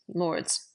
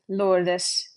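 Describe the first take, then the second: First: It is said as one syllable. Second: It is said as two syllables. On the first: This is the modern English way. "There is no break between the D and the S" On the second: This is the Middle English way. "There's a kind of a syllable break there"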